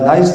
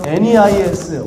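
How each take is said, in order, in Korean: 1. 첫 음절은 'nigh'처럼 들립니다. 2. 첫 음절은 'nay'처럼 들립니다. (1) "발음 편하게 나이스라고 발음합니다" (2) "원래는 네이스라고 발음을 하는데"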